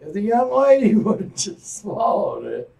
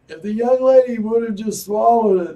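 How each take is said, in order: First: Laughing correction. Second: Said in the usual way. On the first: Real, not acted. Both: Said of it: "I'm sorry".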